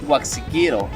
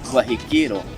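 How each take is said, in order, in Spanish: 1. La consonante del medio se pronuncia con el sonido X. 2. La consonante del medio se pronuncia con el sonido J.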